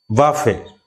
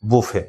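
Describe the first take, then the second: First: বাফে said vafe, the t silent; বাফে spoken vafe, final t dropped; pronunciation. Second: বুফে said bufe, restaurant sense; বুফে spoken bufe, no final t; pronunciation. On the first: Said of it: "এটাকে কিন্তু বাফে বলা যায়". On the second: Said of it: "সেটা হচ্ছে". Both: Shown as a demonstration.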